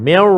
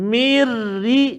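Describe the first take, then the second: First: The r sound is heavy and thick. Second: The r sound is light and thin. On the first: The speaker calls it wrong. "jangan kita baca, ... Jadi nak tebal juga ra tu" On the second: The speaker calls it right. "Patutnya kena tarakik lah. Sebab dia baris kas, kasrah baris bawah kan. Baca dia"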